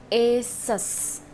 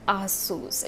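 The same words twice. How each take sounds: First: Asus as "AY-suss"; correct Asus pronunciation. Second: Asus as "ah-SOOS"; wrong Asus pronunciation. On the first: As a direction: say Asus starting with a long A as in "ace". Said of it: "the right pronunciation of this brand is". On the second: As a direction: say Asus with a long "oo". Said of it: "It's ridiculous to pronounce it". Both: Shown as a demonstration.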